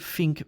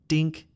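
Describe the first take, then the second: First: The word begins with an f sound. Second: The word begins with a d sound. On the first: "it's also not a F sound" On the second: "This sound is not a D sound"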